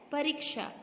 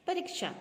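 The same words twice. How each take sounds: First: परीक्षा with long ee, "pa-REEK-sha"; careful model "pareeksha" for परीक्षा; correct pronunciation. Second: परीक्षा with short i, "pa-rik-sha"; wrong pronunciation. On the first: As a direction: hold the middle vowel of परीक्षा. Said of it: "परीक्षा क्या होता है?". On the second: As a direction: say परीक्षा higher, middle vowel short. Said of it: "पर ये गलत है।". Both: Shown as a demonstration.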